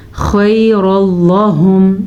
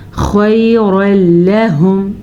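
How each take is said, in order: First: خیر اللہم with the lam read full and heavy; slow خیر اللہم, lam thickened after the heavy ra; wrong recitation. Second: خیر لہم with the lam kept thin and light; slow خیر لہم, heavy ra then a light lam; correct recitation. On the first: Teacher imitating the students' mistake on خیر اللہم. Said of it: "یہ غلط ہے". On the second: Teacher showing the right reading of خیر لہم. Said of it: "آپ نے کیا پڑھنا ہے؟". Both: Shown as a demonstration.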